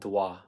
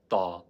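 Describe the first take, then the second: First: A w-like glide follows the consonant. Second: No glide follows the consonant. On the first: The speaker calls it wrong. "Not dwa" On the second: The speaker calls it right. "but da"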